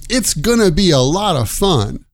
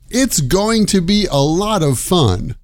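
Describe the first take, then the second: First: Going to is reduced to gonna. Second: Going to is said in full.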